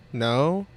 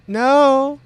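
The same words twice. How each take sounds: First: Said in the usual way. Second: High, loud, overdone no; unconvincing denial. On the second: Acted. Cultist denies being devout to questioner, sounding like a lie. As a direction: deny it too forcefully, pitch leaping up. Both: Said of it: "The middle one sounded like a lie".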